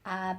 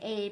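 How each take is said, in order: First: The letter name has a Spanish pronunciation. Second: The letter name has an English pronunciation. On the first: "And then in Spanish it's A" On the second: "Like we'll say A"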